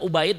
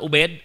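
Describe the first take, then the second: First: The second vowel glides from a to i. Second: The second vowel is a plain e sound. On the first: The speaker calls it right. "nyebutnya Ubaid" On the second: The speaker calls it wrong. "bukan Ubed"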